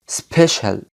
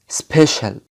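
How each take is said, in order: No difference in how they are said.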